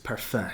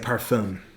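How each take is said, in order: First: The final consonant sound is left silent. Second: The final consonant sound is clearly pronounced. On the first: The speaker calls it right. "You don't say the last letters. It's parfum" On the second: The speaker calls it wrong. "I was saying parfum"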